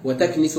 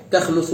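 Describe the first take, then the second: First: وتكنس with i after nun: wa-taknisu; kasra on nun. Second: تخنس with u after nun: takhnusu; damma on nun. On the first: Teacher explaining planets entering their shelter, وتكنس said as wa-taknisu. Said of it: "بكسر النون". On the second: Teacher explaining planets moving back, تخنس said as takhnusu. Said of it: "بضم النون". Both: Shown as a demonstration.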